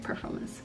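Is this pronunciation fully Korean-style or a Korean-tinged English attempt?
English attempt. It is an English attempt with a slight Korean trace. "when I say it in English context, I try, but it's still a little bit like Korean"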